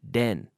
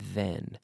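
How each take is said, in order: First: It begins with a d sound, tongue behind teeth. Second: It begins with a voiced th, tongue out. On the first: The speaker calls it wrong. "if my tongue is inside my mouth, behind my teeth, I have a D sound" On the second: The speaker calls it right. "my tongue is out"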